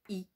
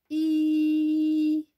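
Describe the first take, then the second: First: The vowel is short. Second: The vowel is drawn out long. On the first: The speaker calls it wrong. "je ne dis pas j'entends I" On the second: The speaker calls it right. "Mais je dis j'entends I. Ici, on prolonge le I"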